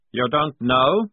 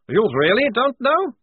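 First: Incredulous question. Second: High, loud incredulous question rising on know; amused disbelief. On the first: Prisoner surprised at officer's ignorance. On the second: Prisoner to clueless lieutenant, amused and incredulous. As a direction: relish the officer's ignorance. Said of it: "Now Towering was laughing". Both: A narrator's reading.

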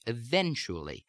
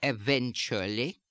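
First: Standard American "eventually", stress only on the second syllable, falling end; standard American accent. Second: German-accented "eventually", every syllable stressed, slow, rising end. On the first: Accent coach demonstrating standard American speech, "eventually" in American accent. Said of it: "in standard American speech". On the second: Accent coach demonstrating added secondary stress, "eventually" in German accent. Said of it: "unstressed syllables ... will take on a secondary stress". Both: Shown as a demonstration.

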